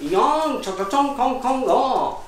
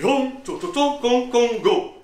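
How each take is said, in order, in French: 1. La voix descend à la fin, comme une réponse. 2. La voix monte à la fin, comme une question. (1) "ça voulait dire « Oui, c'est bien moi, et alors ?»" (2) "ça veut dire « Est-ce que c'est bien vous, le grand mage de Chine ?»"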